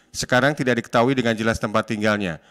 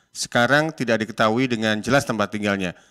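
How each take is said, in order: The two takes are said the same way.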